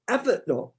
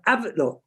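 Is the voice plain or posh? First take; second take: posh; plain. First: It is said in a posh telephone voice. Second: It is said in a plain everyday voice. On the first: The speaker calls it wrong. "I naturally went to put on a posh voice then" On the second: The speaker calls it right. "I'm not going to do a posh voice"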